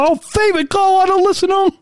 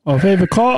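First: Playful high-pitched announcing. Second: Said in the usual way. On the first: Pretend. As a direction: jump up into a high silly voice. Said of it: "that's like a high-pitched voice". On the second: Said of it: "I love how your voice changing, uh, changes".

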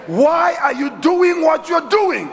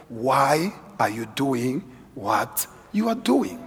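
First: Higher, louder, slow, pressing question; preaching shout. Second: Slow, softer, probing question; slow searching question. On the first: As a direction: hurl the question at the crowd. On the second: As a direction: ask it slowly and quietly, as if to yourself. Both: Shown as a demonstration. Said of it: "Have you ever asked yourself".

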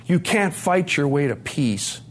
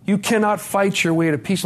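First: Said in the usual way. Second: "cannot" spelled out firmly, pitched higher; stress on "cannot". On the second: Retold or imitated. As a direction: drive home "cannot" as two full beats. Friends' advice repeated with full "cannot.

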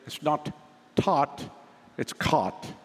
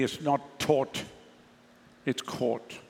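First: Put-on American accent with open "ah" in "taught" and "caught"; imitated American accent. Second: South African rounded "aw" in "taught" and "caught", drawn out; South African accent. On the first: Preacher mimics how his congregation would say it, imitated American accent. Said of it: "You would say". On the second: Shown as a demonstration. Preacher corrects the congregation's pronunciation, South African accent. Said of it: "proper South African accent".

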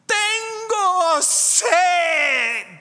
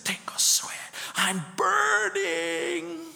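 First: High, loud, drawn-out scream in Spanish; retold scream. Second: Hushed, drawn-out whisper rising to a high wail; eerie whisper. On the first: Possessed woman screaming down the hospital corridor, slow high shout. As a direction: shriek it slow like a tormented patient. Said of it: "and I hear someone scream". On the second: Retold or imitated. Preacher recalling the patient's cry, eerie slow whisper. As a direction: breathe the words like a haunted voice. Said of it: "and I'm hearing this".

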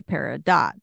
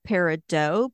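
First: "peridot" ending firmly in "dot"; peridot with sounded T. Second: "peridot" rhyming its end with "dough"; old pronunciation, silent T. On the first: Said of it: "but now I say". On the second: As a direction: say "peridot" as PAIR-ih-doh. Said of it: "I believe that I said". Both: Shown as a demonstration.

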